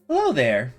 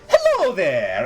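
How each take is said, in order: First: It is said in the speaker's usual accent. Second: It is said in a put-on Italian accent.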